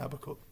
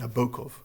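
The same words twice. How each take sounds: First: The stress is on the first syllable. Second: The stress is on a later syllable. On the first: This is the usual English way. The speaker calls it wrong. "rather than Nabokov" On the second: This is the preferred Russian way. The speaker calls it right. "Nabokov rather than"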